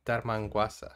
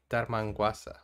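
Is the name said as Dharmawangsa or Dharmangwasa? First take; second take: Dharmangwasa; Dharmangwasa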